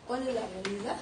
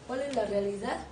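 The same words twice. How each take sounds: The two takes are said the same way.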